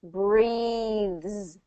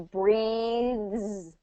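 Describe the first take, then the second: The two takes are said the same way.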